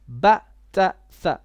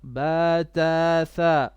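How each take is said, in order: First: The vowels are short. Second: The vowels are drawn out long. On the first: The speaker calls it right. "It is" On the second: The speaker calls it wrong. "not ... this is a long vowel"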